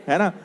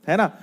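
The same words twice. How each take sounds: The two takes are said the same way.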